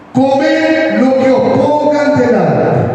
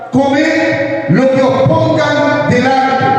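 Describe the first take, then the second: No difference in how they are said.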